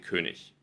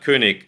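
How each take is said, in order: First: The word ends with a ch sound. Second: The word ends with a hard g sound. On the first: This is how people in some regions say it. "sagen sie König" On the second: This is the standard pronunciation. "statt König"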